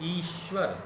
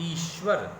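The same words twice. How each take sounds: No difference in how they are said.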